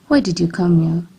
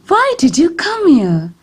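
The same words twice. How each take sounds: First: The voice sounds bitter and resentful. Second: The voice sounds surprised and astonished. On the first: "This shows a bitter tone of voice" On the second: "This shows a surprised tone of voice"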